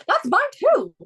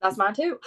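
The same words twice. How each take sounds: First: High, loud delighted squeal; excited, louder high-pitched exclamation. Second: Said in the usual way. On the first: Real, not acted. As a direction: shoot way up in pitch, thrilled. Excited repeat on shared favourite rider.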